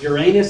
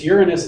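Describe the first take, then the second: First: It sounds like 'your anus'. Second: It sounds like 'urine us'. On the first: "it sounds like asshole" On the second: "it sounds like pee"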